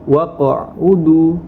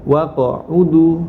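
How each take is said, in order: First: The voice stops briefly on the qaf. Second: The voice stops briefly on the qaf.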